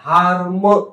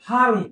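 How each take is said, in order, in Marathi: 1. शब्द एका एका ध्वनीनुसार सावकाश ओढून म्हटला जातो. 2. शब्द एकाच दमात पटकन म्हटला जातो. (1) "हार्म असं नाही करायचं" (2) "हार्म पटकन उच्चार करायचा आहे"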